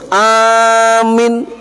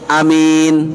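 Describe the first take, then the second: First: The first vowel is long, the second short. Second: The first vowel is short, the second longer. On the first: It is a command to believe. "A-nya panjang, M-nya pendek" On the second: It names a trustworthy person. "ai pendek mini rada dawa"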